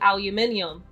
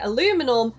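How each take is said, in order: First: It is said in a British way. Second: It is said in an American way. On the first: "we say aluminium. That's how it's pronounced in the U K" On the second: "You guys say aluminum"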